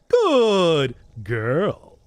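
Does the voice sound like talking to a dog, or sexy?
dog voice. It is said in a high, cooing pet voice. "talking to a dog voice"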